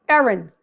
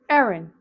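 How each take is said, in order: The two takes are said the same way.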